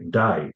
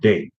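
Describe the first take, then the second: First: It is said with an Australian accent. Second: It is said without an Australian accent.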